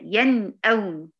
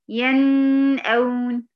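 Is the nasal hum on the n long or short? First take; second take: short; long. First: The nasal hum on the n is brief. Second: The nasal hum on the n is drawn out. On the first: The speaker calls it right. "لا هي ين اون" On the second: The speaker calls it wrong. "زودتي درجة الغنة"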